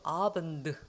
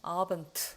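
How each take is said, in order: First: It ends in a voiced d sound. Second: It ends in a voiceless t sound. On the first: "abend 하면 좋을 텐데" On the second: "abend 한단 말이죠"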